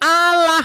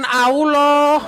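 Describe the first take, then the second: First: The vowels sound like a plain 'a'. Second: The vowels sound rounded, close to 'o'. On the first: It is read as the Latin letters spell it. The speaker calls it right. "Ini huruf A atau huruf O?" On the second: It is read with the Arabic pronunciation. The speaker calls it wrong. "bukan Allah"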